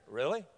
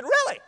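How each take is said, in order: First: Soft, low questioning Really; doubtful. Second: High-pitched excited Really; emphatic. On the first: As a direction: ask it quietly, low and unsure. Kid doubts, coach echoes him. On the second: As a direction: echo it back high, full of conviction. Coach echoes kid with conviction. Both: Retold or imitated.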